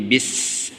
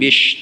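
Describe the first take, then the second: First: The consonant is a thin s sound. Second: The consonant is an sh sound. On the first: The speaker calls it right. "tapi bis, sinnya kecil" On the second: The speaker calls it wrong. "jangan bish"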